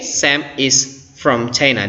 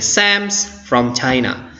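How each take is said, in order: First: Sam and is are said as separate words. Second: Sam and is are merged into one shortened word.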